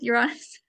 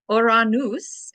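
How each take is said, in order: First: The name is said with its usual English sounds. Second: The name is said with its Greek sounds. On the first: "Such a great name" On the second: "in Greek. I like kind of that pronunciation better"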